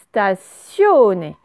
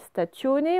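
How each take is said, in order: First: The middle consonant is an S sound. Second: The middle consonant is a hard T sound. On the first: The speaker calls it right. "le T, il vaut un S" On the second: The speaker calls it wrong. "On dit pas stationné"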